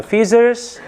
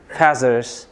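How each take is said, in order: First: FEATHERS as "FEE-zers", pitched high; variant pronunciation. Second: FEATHERS as "FAZ-ers", pitch lowered; variant pronunciation. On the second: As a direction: say feathers with an open a, falling low. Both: Shown as a demonstration. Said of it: "British American accentda gapiryapti".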